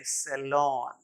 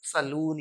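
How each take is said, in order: First: सैलून said "SE-lawn"; correct pronunciation. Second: सैलून said "sa-LOON"; long "oo" in the end of सैलून; wrong pronunciation. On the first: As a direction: open "aw" in the end of सैलून. (सैलून का उच्चारण "सेलॉन") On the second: (सैलून, "लून" वाला गलत उच्चारण) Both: Shown as a demonstration. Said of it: "या कुछ और नहीं".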